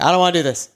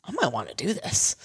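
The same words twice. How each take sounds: First: Firmer mock refusal, falling at the end; reluctant refusal. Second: Soft, rising, tempted musing; tentative interest. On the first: Newcomer after a scary experience, balking. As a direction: imitate someone put off, voice dropping away. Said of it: "versus being like". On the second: Acted. Newcomer walking away from the experience, softly intrigued. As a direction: quietly open to it, voice lifting at the end. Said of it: "you should walk away being like".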